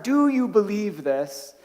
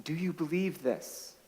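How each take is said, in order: First: Slow, deliberate, each word weighed; slow down and lean on "Do you believe this?"; savoured question. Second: Soft, quiet gentle asking; gentle question. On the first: Shown as a demonstration. Pastor relishing Jesus' question to Martha, slow emphatic. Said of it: "I love that last part". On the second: Retold or imitated. Jesus gently asking Martha, soft quiet question. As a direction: ask it softly, almost intimate. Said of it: "and he says to Martha".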